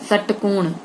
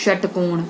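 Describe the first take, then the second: No difference in how they are said.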